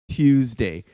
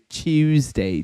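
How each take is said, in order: First: Tuesday is said without the British 'chew' sound. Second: Tuesday is said the English way, like 'Chewsday'.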